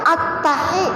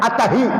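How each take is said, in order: First: The h is a tight throat sound. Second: The h is a plain breathy sound. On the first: The speaker calls it right. "ha kecil. Harus ha kecil" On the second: The speaker calls it wrong. "pakai ha gede"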